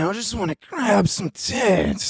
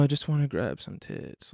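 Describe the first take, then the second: First: It is said in a lively, exaggerated voice. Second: It is said in a flat, monotone voice. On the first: The speaker calls it wrong. "why would you say it like that?" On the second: The speaker calls it right. "just very monotone"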